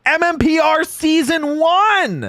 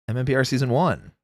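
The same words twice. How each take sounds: First: Slow, high hype announcement; announcer voice. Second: Said in the usual way. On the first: Shown as a demonstration. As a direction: announce it like a show title. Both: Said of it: "let's bring it back around".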